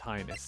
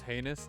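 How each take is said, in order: First: The first syllable sounds like 'high'. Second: The first syllable sounds like 'hay'. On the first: "I changed the pronunciation" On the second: "Isn't it pronounced heinous?"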